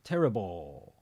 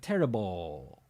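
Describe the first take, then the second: The two takes are said the same way.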